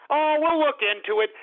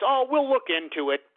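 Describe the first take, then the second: First: Higher, exaggerated mock of a dismissive brush-off; mocking Merkel. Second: Mocking Merkel. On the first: Sneering at Angela Merkel's reply in a higher mocking voice. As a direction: lay the sarcasm on thicker, pitched up. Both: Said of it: "all she said was".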